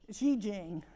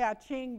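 First: The name is said with a Chinese-style pronunciation. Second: The name is said with an English-style pronunciation. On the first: This is the correct native form. "is the correct way to say it" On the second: This is the familiar form people commonly use. "But I like to say I Ching because we do"

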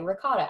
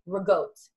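First: Ricotta is said in the ordinary pronunciation. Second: Ricotta is said in the regional pronunciation. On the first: "I used to say ricotta" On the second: "they say rigote. That's how it's supposed to be pronounced"

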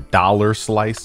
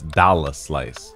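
First: The R at the end of dollar is pronounced. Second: The R at the end of dollar is dropped. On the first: The speaker calls it wrong. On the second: The speaker calls it right. "we do not pronounce the R in hip hop"

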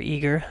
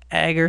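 First: The name begins with a long 'ee' vowel. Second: The name begins with a short 'a' vowel. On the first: This is how some other people pronounce it. "some people pronounce it differently" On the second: This is the speaker's own usual pronunciation. "I guess I'll always pronounce it Agger"

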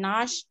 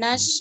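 First: The word ends with an sh sound. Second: The word ends with a plain s sound. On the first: The speaker calls it wrong. "bukan nash" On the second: The speaker calls it right. "nas bukan nash"

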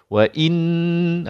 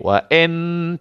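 First: A clear i vowel comes before the n. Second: The n follows directly with no i vowel. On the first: The speaker calls it right. "baru betul" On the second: The speaker calls it wrong. "tak boleh"

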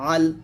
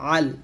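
First: It starts with a light glottal stop. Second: It starts with a pressed, strained throat sound. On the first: The speaker calls it wrong. "না যে আল" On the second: The speaker calls it right. "বলতে হবে আইন লাম জবর আল"

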